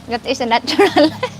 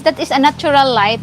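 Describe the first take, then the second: First: Laughter breaks through the word light; a laugh slips into the sentence; laughing mid-line. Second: Said in the usual way. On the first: Real, not acted. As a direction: giggle through the repeat.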